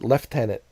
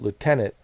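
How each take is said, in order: First: It is said with a British pronunciation. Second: It is said with an American pronunciation. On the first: "you guys call it lieutenant" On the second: "here in America we call it lieutenant"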